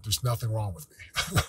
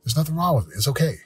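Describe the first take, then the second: First: Softly spoken, almost to yourself; hesitant quiet affirmation; timid first try. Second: Affirmation spoken out, with conviction; firm self-affirmation out loud. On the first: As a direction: say it quietly, not yet believing it. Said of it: "I want you to say it out loud". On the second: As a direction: say it like you mean it. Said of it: "Say it". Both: Shown as a demonstration.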